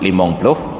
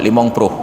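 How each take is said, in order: First: The second word begins with a pl cluster. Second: The second word begins with a pr cluster. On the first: This is the standard form. The speaker calls it right. "seharusnya limong ploh itu disebut limong ploh" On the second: The speaker overcorrects while trying to sound proper. The speaker calls it wrong. "Untuk memfasihkan huruf"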